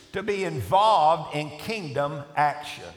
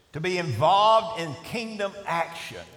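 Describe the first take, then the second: No difference in how they are said.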